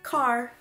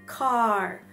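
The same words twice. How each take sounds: First: The vowel is held for a normal length. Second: The vowel is held for much longer.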